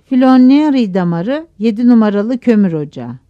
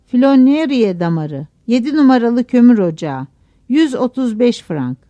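First: Announced roll call. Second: Mildly raised announcing voice; narrated shout. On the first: Cashier's assistant announcing the crew's pit, roll call. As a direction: call out the listing loudly. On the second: Assistant announcing pit and pay, mild narrated shout. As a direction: call out the listing, understated shout. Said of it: "Bir daha bağırdı". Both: A narrator's reading.

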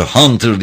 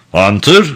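First: Understated cry of alarm, pitched up; mild scream. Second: Tentative question with rising end; soft questioning voice. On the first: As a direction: cry out the name, falling at the end. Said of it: "diye çığlık attı". (hafif bir çığlıkla) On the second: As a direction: ask the name gently, unsure. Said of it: "yumuşak bir ses tonuyla". (yumuşak, soran bir sesle) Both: A narrator's reading.

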